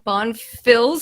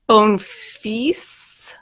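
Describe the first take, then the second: First: The name is said with an American pronunciation. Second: The name is said with a French pronunciation. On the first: It would mean calling him a good little girl. The speaker calls it wrong. "would be the American way to say it" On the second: It does not mean calling him a good little girl. The speaker calls it right. "with the S means I'm not calling you a good little girl"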